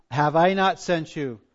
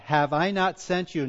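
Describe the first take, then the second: First: Slow line with "I" brought out; stress on I. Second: Said in the usual way. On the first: Shown as a demonstration. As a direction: lean deliberately on the word "I". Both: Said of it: "Notice the emphasis".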